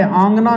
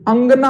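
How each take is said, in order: First: "आंगना" with a long आ at the start, marked as wrong; wrong form. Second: "अंगना" with a short अ at the start; correct form. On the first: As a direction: open "आंगना" on a drawn-out आ. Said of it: "आंगना नहीं होता". (गलत रूप "आंगना", शुरू में लंबा आ) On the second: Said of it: "अंगना होता है". (सही रूप "अंगना", शुरू में छोटा अ) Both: Shown as a demonstration.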